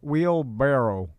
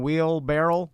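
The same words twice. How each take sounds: First: The second part sounds like 'barrow'. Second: The second part sounds like 'barrel'. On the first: The speaker calls it right. "and it's wheel wheelbarrow" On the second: The speaker calls it wrong. "I was saying wheelbarrow for my entire life"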